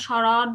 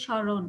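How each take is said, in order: First: স্মরণ with an open second vowel, "sho-rawn"; unrounded vowel. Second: স্মরণ with rounded o, "sho-ron"; rounded vowel. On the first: Teacher showing what we don't say, স্মরণ with open "raw". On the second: Teacher explaining the o-kar, স্মরণ said with rounded "ron". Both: Shown as a demonstration. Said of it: "একটু গোল করে বলি".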